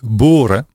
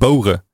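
First: The o vowel is pure and steady. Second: The o vowel glides like a diphthong. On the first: This is how the speaker really says it. "dan heb ik wel een O" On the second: This is not how the speaker says it. "Ik zeg niet boren"

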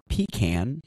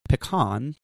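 First: The word sounds like 'pee' plus 'can'. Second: The first syllable does not sound like 'pee'. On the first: The speaker calls it wrong. "not pecan, which refers to a can that you pee in" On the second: The speaker calls it right. "it's pronounced pecan"

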